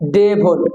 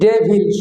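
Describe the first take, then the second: First: The second syllable has a reduced vowel. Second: The second syllable has a clear 'i' vowel. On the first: The speaker calls it right. "সঠিক উচ্চারণ হবে ডেভল" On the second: The speaker calls it wrong. "এটা normally কিন্তু D E V I L, ডেভিল উচ্চারিত"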